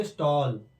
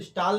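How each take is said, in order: First: स्टॉल with rounded 'aw'; स्टॉल rhyming with hall; correct pronunciation. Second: स्टॉल with long 'aa', as 'staal'; unrounded 'aa' in स्टॉल; wrong pronunciation. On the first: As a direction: say स्टॉल as English 'stall'. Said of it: "इसे बोलेंगे स्टॉल". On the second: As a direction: misread स्टॉल with the vowel of father. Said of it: "तो इसे स्टॉल नहीं बोलेंगे". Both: Shown as a demonstration.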